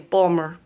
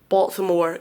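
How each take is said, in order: First: The middle syllables are squeezed into two. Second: All syllables are said in full. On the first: "they say Balmer" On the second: "they don't say Baltimore"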